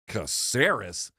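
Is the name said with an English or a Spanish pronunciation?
English. The name is said with English-style pronunciation. The speaker calls it wrong. "My wife heard me say Caceres"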